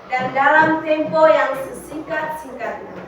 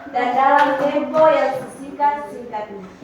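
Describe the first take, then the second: No difference in how they are said.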